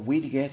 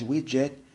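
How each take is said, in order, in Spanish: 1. Se pronuncia con estilo español. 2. Se pronuncia con pronunciación inglesa. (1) "pues ustedes hispanoparlantes, un widget o widget, como lo quieran pronunciar" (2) "la pronunciación correcta es widget"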